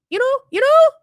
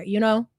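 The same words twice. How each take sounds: First: Put-on high, rising Valley girl uptalk; exaggerated Valley girl squeal of a question; mock Valley girl. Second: Said in the usual way. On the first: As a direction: mimic a fake Valley girl, pitch leaping upward. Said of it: "that fake Valley girl bullshit". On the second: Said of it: "fake Valley girl bullshit".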